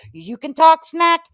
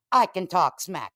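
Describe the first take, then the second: First: "You can talk smack" high, loud and slow, punching "talk"; mocking challenge. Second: "I can talk smack" brought down, weight on "I", falling end; firm comeback. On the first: Host calling out Julie, "You can talk smack" as a loud challenge. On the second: Acted. Host matching Julie, "I can talk smack" as a matter-of-fact comeback. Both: Tit-for-tat retort to Julie.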